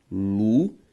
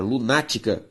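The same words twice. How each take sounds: First: "lunática" split lu... ná... ti... ca; four isolated syllables of "lunática", long pauses between. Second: Said in the usual way. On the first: Shown as a demonstration. Teacher giving the syllable division, syllable by syllable. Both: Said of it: "ao fazer a separação silábica".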